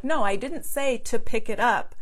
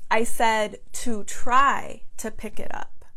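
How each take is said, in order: First: Said in the usual way. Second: I said to TRY to pick it up; stress on try. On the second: Retold or imitated. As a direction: try lifted and leaned on, rising. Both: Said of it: "in his Indian accent".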